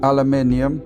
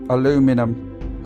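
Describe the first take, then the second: First: It is said the British way. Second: It is said the American way. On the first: This is how people say it here. "over here we say aluminium" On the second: This is how people say it in the USA. "In the U S A you say aluminum"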